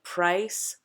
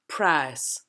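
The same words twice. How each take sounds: First: The vowel glides as a diphthong. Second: The vowel is one single, unchanging sound. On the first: "where you can see my jaw shifting, it's a diphthong" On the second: "is going to become just a single vowel sound"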